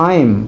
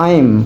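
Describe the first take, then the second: Both takes have the same delivery.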